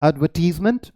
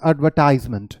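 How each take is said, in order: First: एडवर्टीजमेंट said with "tiz"; British pronunciation. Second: एडवर्टाइजमेंट said with "tize"; American pronunciation. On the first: (एडवर्टीजमेंट का British "टीज़" उच्चारण) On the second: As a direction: stretch एडवर्टाइजमेंट to "tize-munt". (एडवर्टाइजमेंट का अमेरिकी "टाइज़" उच्चारण) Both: Shown as a demonstration. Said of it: "दोनों अलग है".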